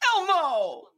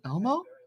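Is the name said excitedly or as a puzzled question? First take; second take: excited; puzzled. First: It is shouted with excitement. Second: It is asked as a puzzled question.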